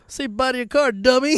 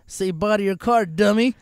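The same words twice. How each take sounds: First: Higher, louder gloating "dummy"; retold taunt, pumped up with glee; hammed taunt. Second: A touch louder, teasing "dummy"; retold gloating taunt; mocking taunt. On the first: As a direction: really rub it in. Repeating the taunt, bigger. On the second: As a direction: taunt the car owner. Repo man taunting owner.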